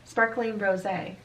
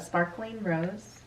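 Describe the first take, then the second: First: The last word is two syllables, ending in ay. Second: The last word is one syllable, like the flower. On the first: The speaker calls it right. "We need to be proper in our pronunciation" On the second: The speaker calls it wrong. "not Sparkling Rose"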